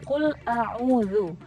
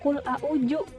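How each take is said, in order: First: The middle consonant is a soft 'dz' sound. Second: The middle consonant is a 'j' sound. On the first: The speaker calls it right. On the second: The speaker calls it wrong.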